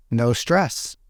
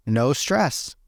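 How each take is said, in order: Both takes have the same delivery.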